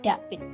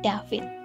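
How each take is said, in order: First: The name is said with a Javanese accent, no V. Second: The name is said with Indonesian letter sounds. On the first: "Malas bilang V, David menjadi David" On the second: "Orang Indonesia akan membaca nama David berdasarkan huruf bahasa Indonesia"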